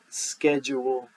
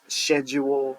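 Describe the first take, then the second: First: The C is sounded in the word. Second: The C is not sounded in the word. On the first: This is the usual way to say it. "you pronounce that C in there" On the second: This is a fancier way to say it. "Some fancy people pronounce this schedule"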